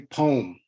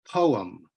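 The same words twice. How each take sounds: First: It is said as one syllable, like pome. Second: It is said with an um ending, like po-um. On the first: "like an apple or pom I want to bite into, because it has an om inside it" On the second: "like it has an um inside it"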